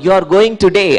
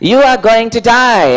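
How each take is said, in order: First: Today is said in his plain everyday accent. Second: Today is said in a put-on trained accent.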